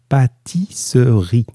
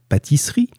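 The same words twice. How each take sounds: First: Each syllable is clearly detached. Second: The syllables are run together quickly.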